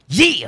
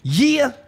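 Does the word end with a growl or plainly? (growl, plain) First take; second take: growl; plain. First: The word ends with a growl. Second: The word ends plainly without a growl. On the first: The speaker calls it right. "you gotta have a growl at the end" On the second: The speaker calls it wrong. "See, I said it wrong"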